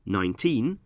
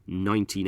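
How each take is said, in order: First: Put-on nineteen with the weight on TEEN; stress on second syllable. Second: Nineteen with the weight on NINE; stress on first syllable. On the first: Teacher showing listeners the stress of nineteen, stressed on TEEN. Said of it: "we stress the second syllable". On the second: Teacher showing how years are said, nineteen stressed on NINE. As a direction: say nineteen as NINE-teen, as in a year. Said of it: "stress the first syllable of nineteen". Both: Shown as a demonstration.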